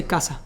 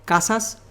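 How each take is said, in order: First: "casa" with the plural S left off; Caribbean Spanish "casa", ending on the open vowel; dropped final S. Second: Said in the usual way. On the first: Shown as a demonstration. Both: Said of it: "we don't pronounce the S".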